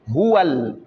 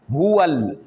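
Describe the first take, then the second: No difference in how they are said.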